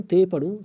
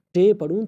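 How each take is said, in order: First: تے with tongue against the teeth; soft dental T. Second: ٹے with tongue curled back for the T; hard retroflex T. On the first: Teacher offering possible readings of a letter, تے with dental T. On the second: Teacher offering possible readings of a letter, ٹے with retroflex T. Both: Shown as a demonstration. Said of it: "میں اس کو کیسے پڑھوں".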